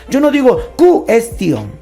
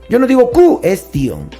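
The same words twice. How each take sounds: No difference in how they are said.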